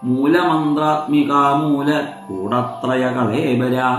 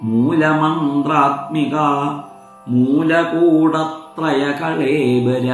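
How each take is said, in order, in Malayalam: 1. രണ്ടാമത്തെ പേര് അതിന്റെ ആദ്യ ഭാഗത്തിന് ശേഷം മുറിയുന്നു. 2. രണ്ടാമത്തെ പേര് മുറിയാതെ ഒറ്റ വാക്കായി ചൊല്ലുന്നു. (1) "ചില ആളുകൾ ചൊല്ലുന്ന സമയത്ത് ... അങ്ങനെ അത് മുറിയരുത്" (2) "എന്നൊരൊറ്റ വാക്കാണ് ... എന്ന് വേണം ചൊല്ലാൻ"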